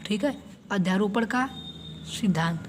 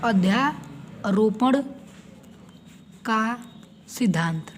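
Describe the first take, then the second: First: Said in the usual way. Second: Slow emphatic term. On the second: Shown as a demonstration. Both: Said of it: "हमें सीखना है".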